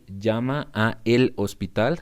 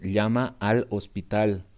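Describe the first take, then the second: First: The two words are said separately, a el. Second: The two words merge into one syllable, al. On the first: It is still understood. "But if you say ... I understand both" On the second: This is how many people say it. "say the sentence say llama al hospital"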